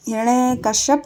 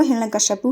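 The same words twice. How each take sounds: First: हिरण्यकश्यप ending on a bare p, no final u; wrong form read out. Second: हिरण्यकश्यपु with a clear final u, kash-ya-pu; correct form said. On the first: Teacher reads the misspelt name हिरण्यकश्यप with no final u. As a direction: stop हिरण्यकश्यप dead on the p. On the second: Teacher gives the correct name हिरण्यकश्यपु ending in pu. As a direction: finish हिरण्यकश्यपु on an audible pu. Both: Shown as a demonstration. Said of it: "हिरण्यकश्यप नहीं होगा".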